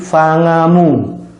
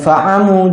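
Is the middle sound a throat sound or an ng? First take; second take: ng; throat sound. First: The middle has an ng sound. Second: The middle has a tight throat sound. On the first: The speaker calls it wrong. "berubah menjadi ng" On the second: The speaker calls it right.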